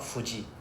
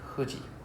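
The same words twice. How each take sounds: First: It starts with a hard English f sound. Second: It starts with a soft breathy h-like sound. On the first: The speaker calls it wrong. "not Fuji" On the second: The speaker calls it right. "it's not F sound"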